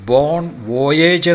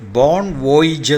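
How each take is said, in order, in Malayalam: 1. അവസാന വാക്ക് 'ayj' ശബ്ദത്തിലാണ് അവസാനിക്കുന്നത്. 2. അവസാന വാക്ക് 'ij' ശബ്ദത്തിലാണ് അവസാനിക്കുന്നത്. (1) "അല്ല ഉച്ചരിക്കേണ്ടത്" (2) "അല്ല ഉച്ചരിക്കേണ്ടത്"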